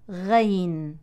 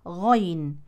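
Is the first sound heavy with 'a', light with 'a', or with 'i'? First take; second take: light a; heavy a. First: It starts light and thin with 'a'. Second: It starts heavy with an open 'a' vowel. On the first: The speaker calls it wrong. "ولا بالترقيق" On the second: The speaker calls it right. "بفتح الغين مع تفخيمها"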